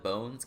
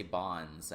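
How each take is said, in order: First: "Bones" with a long O, as on the show; name said as "Bones", long O; TV show pronunciation. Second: "Bonds" with an open, short O; name said as "Bonds", short O; popular pronunciation. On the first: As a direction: say "Bones" to rhyme with stones. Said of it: "that's how they say it". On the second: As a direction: say "Bonds" like the word bonds, as many players do. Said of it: "a lot of people say". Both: Shown as a demonstration.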